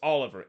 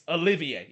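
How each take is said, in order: First: The name is said the English way, ending in -er. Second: The name is said the French way, ending in -ier. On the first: The speaker calls it wrong. "it's not pronounced Oliver" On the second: The speaker calls it right. "it's Olivier, it's it's French"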